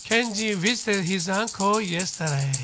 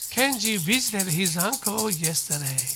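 Both takes have the same delivery.

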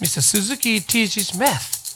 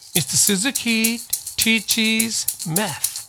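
First: It is said at a noticeably faster pace. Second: It is said at a normal, unhurried pace.

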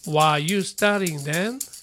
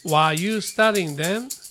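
No difference in how they are said.

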